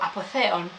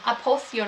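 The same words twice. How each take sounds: First: The name is said with a Greek pronunciation. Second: The name is said with an English pronunciation.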